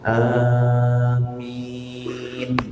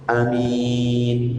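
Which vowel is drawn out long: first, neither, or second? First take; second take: first; neither. First: The first vowel is held longer than normal. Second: Both vowels are said short. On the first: "agak panjang juga, hanya lebih dari dua harokat" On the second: "Ini benar. Hanya pendek"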